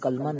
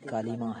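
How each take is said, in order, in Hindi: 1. L और M के बीच कोई स्वर नहीं सुनाई देता है। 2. L और M के बीच I स्वर सुनाई देता है। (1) "कलमा नहीं" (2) "बल्कि कलीमा है"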